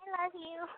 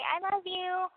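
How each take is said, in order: First: It is said softly, less intensely. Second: It is said plainly, without feeling.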